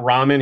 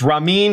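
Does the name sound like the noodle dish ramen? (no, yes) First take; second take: yes; no. First: It sounds like the noodle dish ramen. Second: It does not sound like the noodle dish. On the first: The speaker calls it wrong. "not ramen. He's not noodle" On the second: The speaker calls it right. "It's Ramin"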